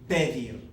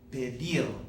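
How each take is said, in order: First: The stress is on the first syllable. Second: The stress is on the last syllable. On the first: The speaker calls it wrong. "It's not pedir" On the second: The speaker calls it right. "that natural stress comes on the last syllable of this verb"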